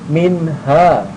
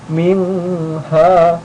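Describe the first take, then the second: First: The n is short and clear, no hum. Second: The n is held with a nasal hum. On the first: The speaker calls it right. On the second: The speaker calls it wrong. "bukan min ha, tidak pakai dengung"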